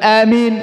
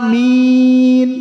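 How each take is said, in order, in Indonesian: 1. Vokal kedua dibaca pendek sekali. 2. Vokal kedua dibaca panjang sekali. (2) "Maka baca enam"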